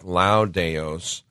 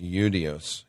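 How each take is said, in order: First: The word begins with an L sound. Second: The word begins with a vowel sound. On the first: The speaker calls it wrong. "It's spelled like Laudeos" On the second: The speaker calls it right. "but it's actually pronounced Eudeos"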